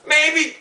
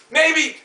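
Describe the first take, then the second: No difference in how they are said.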